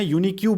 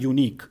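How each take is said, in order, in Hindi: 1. इस शब्द के अंत में एक अतिरिक्त 'kyoo' की आवाज़ जुड़ती है। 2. इस शब्द का अंत सादे 'k' की आवाज़ से होता है। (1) "यूनिक को मैं यूनिक्यू बोल देता था, तो वो बहुत ही गलत था" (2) "जैसे एक वर्ड होता है यूनिक"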